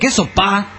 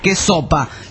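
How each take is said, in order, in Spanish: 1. El acento en sopa está en la última sílaba. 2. El acento en sopa está en la primera sílaba. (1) "El acento en la A" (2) "no se dice que sopa"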